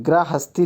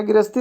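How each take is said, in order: First: गृहस्थी as "gra-hasti"; correct form. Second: गृहस्थी as "girasti", no h; wrong form. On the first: Teacher correcting the class, गृहस्थी as "gra-hasti". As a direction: sound the "ha" in गृहस्थी. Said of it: "गृहस्थी लिखा जाता है". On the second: Teacher questioning the misspelling, गृहस्थी as "girasti". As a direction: leave the h out of गृहस्थी. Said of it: "इस तरह गृहस्थी लिखा जाता है कहीं". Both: Shown as a demonstration.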